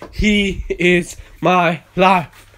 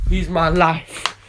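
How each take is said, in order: First: Very slow, every word of "He is my life" weighted; a slow, solemn profession; slow emphatic declaration. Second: Said in the usual way. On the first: Shown as a demonstration. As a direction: spell out "He is my life" word by word, heavy on "He".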